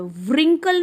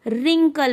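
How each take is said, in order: First: व्रिंकल with a clear w at the start; wrong w sound. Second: रिंकल starting straight on r; silent w. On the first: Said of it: "हम यहाँ पे व्रिंकल नहीं बोलेंगे". (व्रिंकल में व की ध्वनि बोलें) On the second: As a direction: drop the w and say रिंकल. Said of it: "रिंकल बोलेंगे". (रिंकल बिना व की ध्वनि के) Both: Shown as a demonstration.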